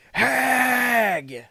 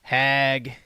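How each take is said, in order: First: Loud, higher shout of Hag!; shouted insult. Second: Said in the usual way. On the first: Real, not acted. Calling the streamer a hag.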